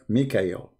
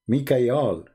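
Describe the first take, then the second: First: The last syllable is pronounced 'el'. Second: The last syllable is pronounced 'al'. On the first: This is the later changed form. The speaker calls it wrong. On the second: This is the ancient form. The speaker calls it right.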